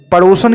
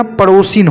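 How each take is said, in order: First: पड़ोसन ending in "san"; mispronounced पड़ोसन. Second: पड़ोसिन ending in "sin"; corrected पड़ोसिन. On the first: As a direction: close पड़ोसन on a short a before n. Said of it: "की जगह". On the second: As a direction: close पड़ोसिन on an i before n. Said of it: "होता है". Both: Shown as a demonstration.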